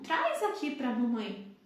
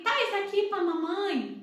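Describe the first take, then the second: First: It is said in a normal, everyday speaking voice. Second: It is said in a high, childish baby voice. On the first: The speaker calls it right. "Tom normal" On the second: The speaker calls it wrong. "aquela vozinha muito aguda"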